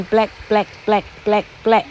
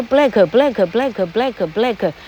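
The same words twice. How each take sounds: First: BLACK repeated in short separate beats, no "kuh"; correct drill. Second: BLACK run together as "blah-kuh, blah-kuh"; cumbersome added vowel. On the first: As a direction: stop each BLACK cleanly on the k. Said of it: "你念久了你就习惯了". (BLACK 短促重复，末尾不带“可”) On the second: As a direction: chain each BLACK with an extra "kuh". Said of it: "会不会太累赘啊". (BLACK 每次都多念一个“可”，连成一串) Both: Shown as a demonstration.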